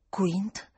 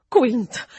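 First: Said in the usual way. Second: A sudden louder burst of the name; exclaiming. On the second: A narrator's reading. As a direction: blurt the name out. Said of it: "esclamò".

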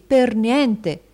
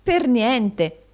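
First: Loud, high, triumphant; husband boasting of a steal; emphatic bargain pitch. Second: High, loud echo in amazement; astonished wife's exclamation; exclaiming. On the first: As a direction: sell the bargain with relish. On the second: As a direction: marvel at the bargain. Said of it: "esclamò Madama". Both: A narrator's reading.

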